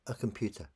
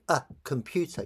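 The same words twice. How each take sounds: First: The article runs into the noun as one word. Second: The article is said apart from the noun. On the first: The speaker calls it right. "like it's one word" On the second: The speaker calls it wrong. "you wouldn't say a computer"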